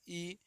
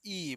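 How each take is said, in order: First: Soft, brief ई; short vowel. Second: Stretched-out ई; long vowel. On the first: Teacher reads the small vowel for pupils, short ई. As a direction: say ई without stretching it. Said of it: "इसको थोड़ा late तक". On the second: Teacher reads the big vowel for pupils, long ई. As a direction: hold ई longer, as the big vowel. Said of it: "बड़ी को क्या पढ़ेंगे". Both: Shown as a demonstration.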